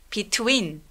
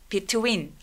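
The two takes are said the same way.

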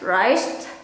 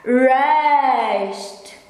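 First: It is said in a relaxed, casual everyday way. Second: It is said in a careful, precise standard way. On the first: This is how it is said in everyday talk. "if I pronounce it for daily conversation, I just pronounce it as rice" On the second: This is the standard, perfect form. "But the quotes perfect should be rest"

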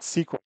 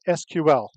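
First: It is pronounced as one word, sequel. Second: It is spelled out letter by letter. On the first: It is treated as an acronym. The speaker calls it wrong. "and not SQL" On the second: It is treated as an initialism. The speaker calls it right. "I said SQL"

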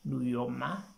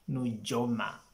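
First: The middle consonant is a 'y' sound. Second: The middle consonant is a 'j' sound. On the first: The speaker calls it right. "the correct pronunciation is Nuyoma" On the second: The speaker calls it wrong. "It's not Nujoma"

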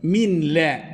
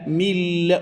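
First: The n is pronounced clearly before the l. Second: The n merges into a doubled l sound. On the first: The speaker calls it wrong. "Normal okunuşu" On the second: The speaker calls it right. "Ama tecvid kuralıyla mille okunur"

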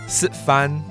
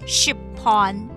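First: It is said in a non-Hailu Hakka accent. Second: It is said in Hailu Hakka, with a p sound.

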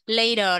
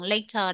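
First: It is said with an American accent. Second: It is said with a British accent. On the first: "Later là đọc theo giọng Mỹ" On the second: "còn later đọc theo giọng Anh nhé"

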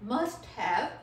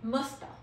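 First: Both words are said fully and separately. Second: The words merge into one reduced word. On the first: "next one is मस्ट हैव" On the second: "एम यू एस टी ए, मस्ता"

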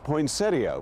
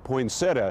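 First: The word ends with an 'ee-uh' sound. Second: The word ends with a plain 'uh' sound. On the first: "Out west, the plants have always been known as poinsettia, which does sound a bit affectated" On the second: "dropping the IA ending for an A only"

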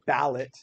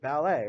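First: The word ends with a sounded T. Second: The word ends with a long A sound. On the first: The speaker calls it wrong. "we don't say ballet" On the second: The speaker calls it right. "it makes the A sound, the long A sound at the end"

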